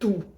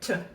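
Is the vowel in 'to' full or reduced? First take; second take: full; reduced. First: The word has a full, long vowel. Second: The word is shortened almost to a consonant. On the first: The speaker calls it wrong. "я вимовляю to як ту" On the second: The speaker calls it right. "Це воно більше як t"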